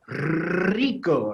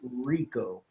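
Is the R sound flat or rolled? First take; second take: rolled; flat. First: The R is strongly rolled. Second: The R is flat and not rolled. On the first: "really getting that rico" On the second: "English speakers tend to just say rico with no emphasis on that R"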